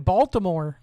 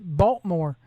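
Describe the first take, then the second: First: It is said in a standard, careful pronunciation. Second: It is said in a clipped local Baltimore accent. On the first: This is how an outsider says it. The speaker calls it wrong. "you say Baltimore" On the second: This is how a local says it. The speaker calls it right. "If you're from Baltimore, you got to pronounce it Baltimore"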